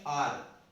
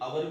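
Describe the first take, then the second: First: The word is said as one syllable. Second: The word is said as two syllables. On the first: The speaker calls it right. "इसको हम बोलेंगे आर" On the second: The speaker calls it wrong. "कुछ अवर भी बोलते हैं, लेकिन अवर नहीं होता"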